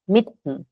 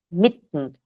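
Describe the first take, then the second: No difference in how they are said.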